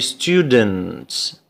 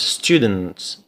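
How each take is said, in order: First: It is said slowly with an added vowel. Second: It is said quickly without an extra vowel. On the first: "if you pronounce it slowly, you say students. Okay, you pronounce a new sound, or a new vowel" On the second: "There is only one one one syllable"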